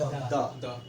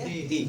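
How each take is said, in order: First: The word ends in a short 'uh' vowel. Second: The word ends in a long 'ee' vowel. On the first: It comes before a consonant. "लेकिन consonant के पहले द" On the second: It comes before a vowel. "वॉवेल के पहले अगर द आता है तो क्या पढ़ेंगे? दी"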